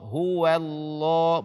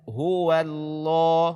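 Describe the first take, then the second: Both takes have the same delivery.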